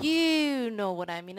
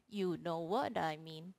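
First: Stretched duration. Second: Said in the usual way. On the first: Shown as a demonstration. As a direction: lengthen each word of "You know what I mean". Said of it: "Duration, I was like". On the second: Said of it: "the synthesizer was regular".

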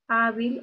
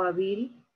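First: Hábil with the weight on HÁ; stress on first syllable. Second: Hábil misstressed as ha-BIL; stress on last syllable. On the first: Teacher offering two stress options, first HÁ stressed in Hábil. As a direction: hit the HÁ of Hábil. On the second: Teacher testing the other stress option, hábil said with stressed BIL. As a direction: shift the weight onto BIL in hábil. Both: Shown as a demonstration. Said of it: "Ahí está la mayor fuerza de voz".

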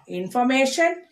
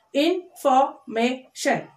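First: Said in the usual way. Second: INFORMATION slowly as in, for, may, shun; four separate beats on INFORMATION; split into syllables. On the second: Shown as a demonstration. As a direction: say INFORMATION one syllable at a time. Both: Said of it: "four syllable words".

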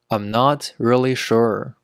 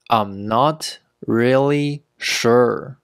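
First: Said in the usual way. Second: Slow and separated, word by word; slow teaching pace. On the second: Shown as a demonstration. Teacher modelling "not really sure" for learners, slowly. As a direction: take it slowly so learners can copy.

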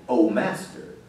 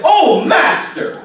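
First: Very low, soft and offhand; casual, unmoved murmur. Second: Higher, drawn-out cry to the master; anguished cry out. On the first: Shown as a demonstration. Preacher showing how the servant didn't say it, low and offhand. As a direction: say it small, with no cry in it. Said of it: "It wasn't just a". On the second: Retold or imitated. Servant crying out to his master, an anguished drawn-out cry. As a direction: cry it out slowly, pitched up. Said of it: "that's how he cried out".

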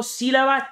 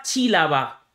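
First: Said in the usual way. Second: Chílaba, the s of sílaba turned into a ch sound; sílaba deliberately mispronounced as chílaba; syncopated sílaba. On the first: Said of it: "Hago una síncopa y te digo sílaba". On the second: Shown as a demonstration. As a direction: bend sílaba into chílaba to force the rhyme. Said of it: "Hago una síncopa y te digo sílaba, chílaba".

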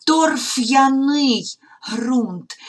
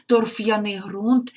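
First: Торф'яний said very slowly, a bit higher and louder, with a break after ф; separated pronunciation. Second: Said in the usual way. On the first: Shown as a demonstration. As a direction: stretch Торф'яний ґрунт clearly for pupils. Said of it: "не даємо зливати приголосним з йотованими". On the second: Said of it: "не даємо зливати".

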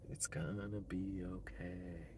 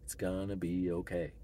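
First: Slow, soft whispered reassurance. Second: Said in the usual way. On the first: Real, not acted. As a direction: breathe it out slowly to yourself. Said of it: "whispered repeat".

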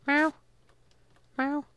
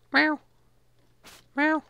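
Both takes have the same delivery.

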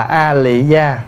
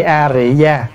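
First: "A Lị Gia" with an L in "Lị", drawn out slowly; pronounced with L. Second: "A Rị Gia" with an R in "Rị", drawn out slowly; pronounced with R. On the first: Monk reading out the listener's question, slow L reading of "A Lị Gia". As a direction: read out "A Lị Gia" slowly, clear L sound. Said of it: "mình đọc là A Lị Gia đúng". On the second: Monk reading out the listener's question, slow R reading of "A Rị Gia". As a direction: read out "A Rị Gia" slowly, clear R sound. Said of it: "hay mình đọc A Rị Gia đúng". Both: Shown as a demonstration.

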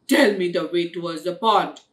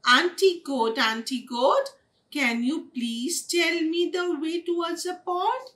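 First: Loud, fast, low order; rude demand. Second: High, lilting sweet plea; polite request. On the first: Blackie orders the bear to give directions, rude demand. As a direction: bark it out with no courtesy. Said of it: "She just very rudely". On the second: Kitten asks Auntie Goat the way, polite request. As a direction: ask politely in a raised singsong voice. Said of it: "she did not ask politely". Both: A narrator's reading.

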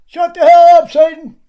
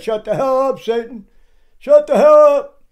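First: High, loud mocking yell; mocking shout. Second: Building mock shout, higher and louder at the end; mimicked yell. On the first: Preacher mocking Stair's yell, high and loud. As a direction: shout it to parody his profanity. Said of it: "Is that how Paul talked to the saints?". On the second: Preacher imitating Stair cursing, a building mock shout. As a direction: throw the curse back at him, rising. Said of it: "after he said".

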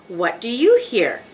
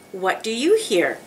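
No difference in how they are said.

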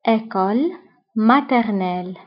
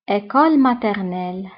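First: École said alone with a rise, then maternelle after a short gap; split word by word. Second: Said in the usual way. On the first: Shown as a demonstration. Teacher splitting École maternelle for students to repeat.

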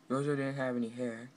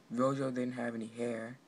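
No difference in how they are said.

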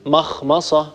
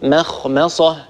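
First: مخمصة with the meem darkened beside the heavy letters; مخمصة with a velarized, heavy m. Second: مخمصة with both meems kept thin and light; مخمصة, meems light against the heavy خ and ص. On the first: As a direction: let the m in مخمصة sound thick. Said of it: "هذا خطأ". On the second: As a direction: keep the m in مخمصة clear and unthickened. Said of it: "الصواب". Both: Shown as a demonstration.

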